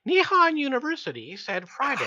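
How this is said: It is said in a high-pitched voice.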